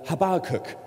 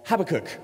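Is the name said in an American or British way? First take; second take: American; British. First: It is said the American way. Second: It is said the British way.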